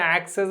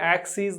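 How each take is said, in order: First: The last syllable sounds like 'ess'. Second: The last syllable sounds like 'eez'. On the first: "మనం దాన్ని యాక్సెస్ అని పలుకుతాం" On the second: "యాక్సీస్ దాని యొక్క actual pronunciation"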